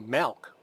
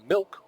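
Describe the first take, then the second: First: It is said in a Chicago accent. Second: It is said in a neutral accent. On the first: This is how people from Chicago say it. "I'm from Chicago, we say milk" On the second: This is how people elsewhere say it. "we don't say milk"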